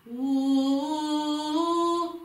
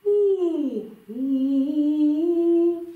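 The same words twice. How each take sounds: First: High, loud "ooh" held with a tight throat; strained, narrow held hoot; tense, squeezed "ooh". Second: High, loud hooted "ooh"; owl-like rounded hoot; round, open "ooh". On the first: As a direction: demonstrate a constricted sung "ooh". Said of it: "comme si c'est un peu serré". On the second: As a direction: demonstrate a full, rounded "ooh" on a held high note. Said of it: "c'est un son rond". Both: Shown as a demonstration.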